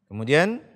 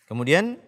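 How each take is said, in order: The two takes are said the same way.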